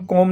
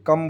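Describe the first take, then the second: First: कॉम with a rounded "o" vowel; कॉम, round open vowel; wrong pronunciation demo. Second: कम with a short "uh" vowel; कम, short "a" as in "kum"; correct pronunciation demo. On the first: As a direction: misread come as कॉम, with an "aw" sound. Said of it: "इसको हम कॉम नहीं बोलेंगे". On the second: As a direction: model come as कम, vowel short and unrounded. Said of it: "कम बोलेंगे". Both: Shown as a demonstration.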